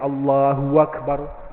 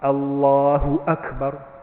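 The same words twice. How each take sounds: First: 'Akbar' starts with a w sound. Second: 'Akbar' starts with a glottal stop. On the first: The speaker calls it wrong. "Dia tukar waw" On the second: The speaker calls it right. "Hamzah. A. A"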